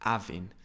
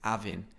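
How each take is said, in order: First: The initial H sound is dropped. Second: The same.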